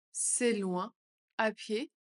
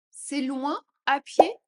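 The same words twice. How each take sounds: First: Said in the usual way. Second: Louder, slower and higher. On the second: Shown as a demonstration. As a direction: call it out slowly. (plus fort, plus aigu, lent) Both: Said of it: "phrase modelled twice".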